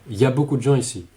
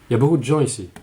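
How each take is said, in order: First: Il y a is reduced to ya. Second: The same.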